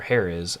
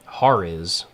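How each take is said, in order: First: Hariz with an "eh", HAIR-iz; alternative pronunciation. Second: Hariz with an open "ah", HAR-iz; first pronunciation option. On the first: Player offering another reading of the son's name, Hariz said "HAIR-iz". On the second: Player trying out the son's name, Hariz said "HAR-iz" as in "hard". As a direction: say Hariz as "HAH-riz". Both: Shown as a demonstration. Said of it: "how you wanna pronounce that".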